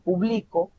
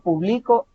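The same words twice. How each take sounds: First: The stress is on the middle syllable. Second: The stress is on the last syllable. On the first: It is an action in the present. "la mayor fuerza vocal se identifica a mitad" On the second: It is an action in the past. "con un acento en la O hasta el final"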